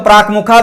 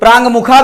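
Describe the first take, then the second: First: The first word ends in a plain stop. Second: The first word ends in a nasal sound. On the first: "चाहे तो न करें" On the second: "अनुनासिक वर्ण करें"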